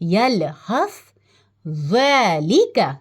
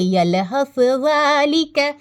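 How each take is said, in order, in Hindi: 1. दोनों शब्दों के बीच साफ़ ठहराव है। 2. दोनों शब्द बिना रुके एक साथ पढ़े जाते हैं। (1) "हम यहाँ रुकेंगे, सांस तोड़ेंगे, रुके, फिर आगे पढ़े" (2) "अगर यहाँ वक्फ का साइन नहीं होता तो हम पढ़ते"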